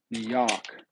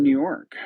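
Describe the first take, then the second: First: "New York" with a dropped R, like "Noo Yawk"; New York accent. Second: Said in the usual way. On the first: Shown as a demonstration. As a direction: say "New York" like a local New Yorker, R-less. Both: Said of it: "Should say it like a New Yorker".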